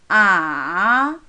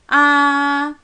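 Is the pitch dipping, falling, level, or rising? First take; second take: dipping; level. First: The pitch starts low, dips, then rises. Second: The pitch stays high and level. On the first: "좀 낮은 음에 시작해서 완전히 내려갔다가 또 올라가요" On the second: "일성"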